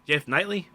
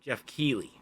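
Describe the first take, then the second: First: Knightley said as "Nightly", with a rising question; unsure guess at the host's name, "Jeff Knightley?"; mispronounced name. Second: Keighley said as "KEE-lee", quiet and falling; corrected name. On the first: Podcaster guessing the host's name, rhyming it with nightly. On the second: Accepting co-host's correction, saying "Keighley" as key-lee quietly. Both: Real, not acted.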